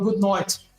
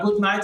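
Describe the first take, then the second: First: The vowels are said in an Australian accent. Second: The vowels are said in a standard accent. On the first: "eles falam good night. Tem, eles mudam o som da, das vogais ali" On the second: "ao invés de falar good night"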